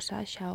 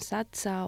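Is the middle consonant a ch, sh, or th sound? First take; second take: sh; ch. First: The middle consonant sounds like 'sh'. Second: The middle consonant sounds like 'ch'. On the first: "o Sasha" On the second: "me llaman Sacha"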